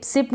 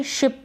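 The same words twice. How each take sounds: First: सिप starting on a plain s; wrong pronunciation. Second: Said in the usual way. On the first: Shown as a demonstration. Teacher quotes what many people read, mispronounced सिप. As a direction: say ship as सिप. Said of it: "सिप नहीं पढ़ेंगे". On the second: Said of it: "शिप पढ़ेंगे".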